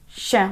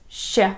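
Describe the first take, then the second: Both takes have the same delivery.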